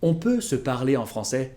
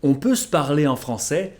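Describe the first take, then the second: The two takes are said the same way.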